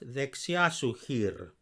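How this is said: 'Su' runs smoothly on from the preceding word 'dexia'. The speaker calls it right. "make the su join smoothly with the dexia and not the hir"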